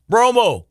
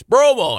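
First: Calling from the next room, loud and high; booming yell. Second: Loud, high booming call; booming radio voice. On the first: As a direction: boom the name across the house. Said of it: "My dad in the other room yells out". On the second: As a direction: yell it like a radio announcer. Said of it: "my dad had a booming radio voice". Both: Retold or imitated.

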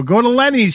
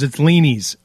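First: Lenny's with a short "eh"; host's own pronunciation. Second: Leany's with a long "ee"; corrected pronunciation. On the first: Host quotes his ad read, Lenny's said with short "eh". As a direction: say Lenny's like LEN-eez, lifted. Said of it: "She makes fun of me". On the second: Host quotes her correcting him, Leany's said with long "ee". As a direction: say Leany's like LEE-neez. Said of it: "she goes". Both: Retold or imitated.

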